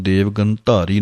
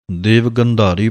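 First: ਗੰਧਾਰੀ said as gantari with a hard t; wrong pronunciation. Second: ਗੰਧਾਰੀ with a voiced aspirated dh; correct pronunciation. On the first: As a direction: show the mistake ਦੇਵ ਗੰਧਾਰੀ with ਧ turned to t. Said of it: "ਨਹੀਂ ਕਹਿਣਾ ਹੈ". (ਗਲਤ ਉਚਾਰਨ) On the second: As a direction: say ਦੇਵ ਗੰਧਾਰੀ with a full ਧ sound. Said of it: "ਧਾ ਦੀ ਆਵਾਜ਼ ਦੇਣੀ ਹੈ". (ਧੱਦੇ ਦੀ ਪੂਰੀ ਆਵਾਜ਼ ਨਾਲ) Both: Shown as a demonstration.

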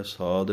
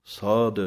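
First: "ਸਾਧ" with a plain unaspirated d, like saad; the wrong way: a light final d in "ਸਾਧ"; "ਸਾਧ" said sad, no breath on the end. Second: "ਸਾਧ" with a heavy, breathy dh at the end; "ਸਾਧ" said sadh, weighted on the last sound. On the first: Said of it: "ਸਾਧ ਨਹੀਂ ਕਹਿਣਾ". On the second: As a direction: give "ਸਾਧ" a full aspirated final ਧ. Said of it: "ਇਹ ਵੀ ਭਾਰਾ ਕਰਕੇ ਬੋਲਣਾ ਹੈ". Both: Shown as a demonstration.

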